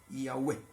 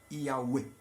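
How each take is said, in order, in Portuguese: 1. Uma vogal u longa, depois um e curto. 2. Uma vogal u longa, depois um e curto.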